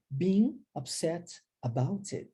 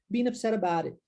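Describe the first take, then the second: First: The T is a clear stop, words kept separate. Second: The T is a quick flap, words run together. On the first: The speaker calls it wrong. "do que being upset about it" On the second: The speaker calls it right. "Isso é mais comum de se ouvir"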